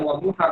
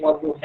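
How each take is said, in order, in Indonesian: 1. Kata itu dibaca dengan cara standar yang biasa. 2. Kata itu dibaca dengan vokal varian. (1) "tidak dibaca wadduha" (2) "tapi wadduha"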